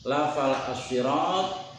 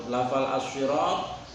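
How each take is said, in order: Both takes have the same delivery.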